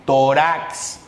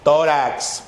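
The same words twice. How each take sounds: First: "Tórax" misread as to-RAX, stress on the last syllable; wrong final stress. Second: "Tórax" said TÓ-rax, falling after the first syllable; stress on first syllable. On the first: Teacher reads "Tórax" without its accent mark, stressed to-RAX. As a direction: lean on rax in "Tórax", pitch rising. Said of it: "Si lo dejo así, ¿qué dice acá?". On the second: Teacher reads "Tórax" with its accent mark, stressed TÓ-rax. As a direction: hit Tó in "Tórax", let rax drop. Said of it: "Lo tildo. Ahora sí, ¿qué dice?". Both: Shown as a demonstration.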